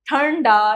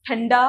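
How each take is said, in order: First: ठंडा with a heavy retroflex n, 'thanndaa'; mispronounced word. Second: ठंडा with a light nasal before da; correct pronunciation. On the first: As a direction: slowly dwell on the n of ठंडा. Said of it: "नहीं होता". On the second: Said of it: "होता है". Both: Shown as a demonstration.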